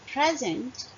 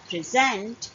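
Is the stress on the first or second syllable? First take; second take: first; second. First: The stress is on the first syllable. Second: The stress is on the second syllable. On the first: "we are putting stress on the first part of the word, on the first syllable of the word" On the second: "we are putting stress on the second part of the word or the second syllable"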